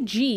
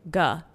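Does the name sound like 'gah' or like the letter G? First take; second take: letter G; gah. First: The name sounds like the letter G. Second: The name rhymes with 'duh'. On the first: "if you say G, you're not technically wrong because it's the first letter of his last name" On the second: "that's how you pronounce the last name G-E, Gah, like duh"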